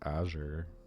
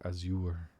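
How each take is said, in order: First: It does not sound like 'as you were'. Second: It sounds like the phrase 'as you were'. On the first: This is how the speaker assumed it was said. The speaker calls it wrong. "I just thought it was Azure" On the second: This is how it is said in the game. The speaker calls it right. "but it's Azure. As in, like, as you were"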